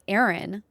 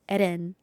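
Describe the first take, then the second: First: The name is said with English pronunciation. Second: The name is said with Japanese pronunciation. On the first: The speaker calls it wrong. "when people are like Aaron" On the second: The speaker calls it right. "I say it in the way Japanese people say it"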